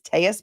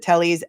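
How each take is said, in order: First: The name is given a Spanish pronunciation. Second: The name is given an English pronunciation. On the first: This is how the detective refers to him. "the Spanish pronunci- pronunciation of his name" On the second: This is how he and everyone else say it. "he pronounces it Tellys"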